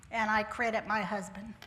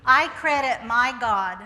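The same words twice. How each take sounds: First: Said in the usual way. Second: I credit my God, slow and louder; emphatic slow credit. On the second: Real, not acted. Speaker thanks God before the audience, slow and emphatic. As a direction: lean on it, slow and strong.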